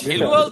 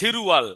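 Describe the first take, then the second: First: The middle consonant is an L sound. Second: The middle consonant is an R sound. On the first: The speaker calls it wrong. "সেলুয়াল তো আর হবে না" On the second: The speaker calls it right. "হবে সেরুয়াল"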